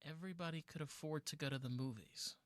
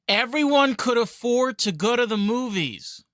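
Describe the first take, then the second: First: It is said at normal, softer volume. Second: It is said noticeably louder.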